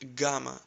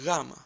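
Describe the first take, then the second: First: It begins with a hard g sound. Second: It begins with a soft w-like sound. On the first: The speaker calls it wrong. "You must have heard it like Gamma" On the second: The speaker calls it right. "So replace G with W and try to say Gamma"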